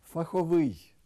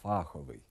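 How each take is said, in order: First: Фаховий stressed on the middle syllable, фахОвий; correct stress. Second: Фаховий stressed on the first syllable, фАховий; wrong stress. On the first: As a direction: say Фаховий with stress on хо, louder and higher. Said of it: "порушують наголос у таких словах". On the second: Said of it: "Неправильний наголос". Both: Shown as a demonstration.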